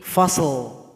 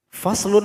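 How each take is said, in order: First: The word stops on a sounded final l. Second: The word ends with a full -un ending.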